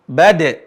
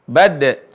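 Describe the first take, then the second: Both takes have the same delivery.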